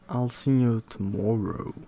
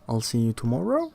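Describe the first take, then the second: First: The pitch falls at the end. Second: The pitch rises at the end. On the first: It is a plain statement. "as a plain statement, you will probably say it with a full of pitch at the end" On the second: It asks whether the friend will come. "with a rise in pitch on the final word"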